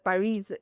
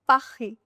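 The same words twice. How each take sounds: First: The final S is pronounced. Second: The final S is silent. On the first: The speaker calls it wrong. "it's not Paris" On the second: The speaker calls it right. "It's Paris. Last letter S is silent"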